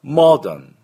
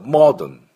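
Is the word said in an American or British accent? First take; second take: British; British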